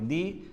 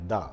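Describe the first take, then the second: First: The vowel is long, like 'thee'. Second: The vowel is short, like 'thuh'. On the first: The next word begins with a vowel sound. "जब कोई sound vowel से शुरू हो तो क्या बोलेंगे" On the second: The next word begins with a consonant sound. "जब कोई साउंड कॉन्सोनेंट से शुरू हो तो क्या बोलेंगे"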